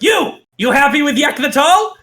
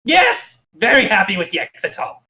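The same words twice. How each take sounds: First: High-pitched goblin boss demanding an answer; imperious goblin king's pointed question; Yek. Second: High yelped yes from a cowed minion; high, anxious goblin answer falling at the end; nervous goblin. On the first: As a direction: put an underling on the spot, pitch well up. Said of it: "Yek points at a random goblin and goes". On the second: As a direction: placate the boss like a nervous goblin underling. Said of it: "looks nervously and goes". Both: Acted.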